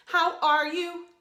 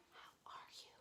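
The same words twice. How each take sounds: First: Sung line. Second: Soft whispered echo of the line. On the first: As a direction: sing it for them to echo. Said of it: "you'll repeat it back to me". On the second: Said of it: "like an echo". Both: Shown as a demonstration.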